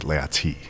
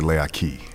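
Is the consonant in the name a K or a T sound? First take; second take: T; K. First: The name is said with a T sound. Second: The name is said with a K sound. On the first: The name is being said in a proper, formal way. "like in a proper way, it would be Leati with a T" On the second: The name is being said casually. "If you were saying it casually, you would say Leaki with a K"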